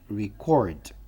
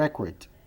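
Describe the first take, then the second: First: The stress is on the second syllable. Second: The stress is on the first syllable. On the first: It is the verb, to record. "Registrar é verbo" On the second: It is the noun, a record. "Registro é record"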